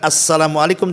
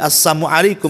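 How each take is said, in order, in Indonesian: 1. Salamnya diucapkan dalam bentuk lengkapnya. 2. Salamnya diucapkan dengan ada bunyi yang diubah. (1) "bukan assalamualaikum" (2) "tapi assalamualaikum"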